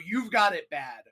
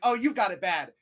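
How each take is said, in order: First: It is said in a disapproving, negative way. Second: It is said in a positive, warm way.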